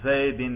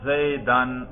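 First: The word ends in the vowel i plus n. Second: The word ends in the vowel a plus n. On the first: The word is in the genitive case. "ذرا اس کے جر پہ تلفظ کرو" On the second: The word is in the accusative case. "اس کے نصب پر ہم تلفظ کر رہے ہیں. تلفظ کر کے دکھاؤ"

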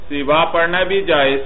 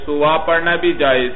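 Both takes have the same delivery.

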